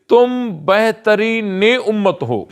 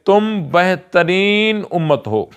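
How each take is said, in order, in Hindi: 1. 'behtarin' के बाद एक -e- जोड़ने वाला स्वर आता है। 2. 'behtarin' के बाद कोई जोड़ने वाला स्वर नहीं आता। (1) "तर्जमा होगा तुम बेहतरीन ने उम्मत हो" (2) "यह तर्जमा दुरुस्त नहीं है"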